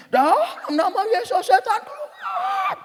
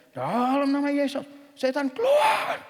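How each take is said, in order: First: Louder mock exorcist yell, drawn out and very high; intensified exorcism command. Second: Exorcism command. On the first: Hamba Tuhan raising intonation and volume at a demon, mock yell. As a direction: stretch it into a soaring, hammed-up squeal. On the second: Retold or imitated. Hamba Tuhan ordering out a demon, mock exorcism command. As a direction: imitate a preacher commanding, climbing steeply in pitch. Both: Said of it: "Dia tingkatkan lagi intonasi dan volumenya".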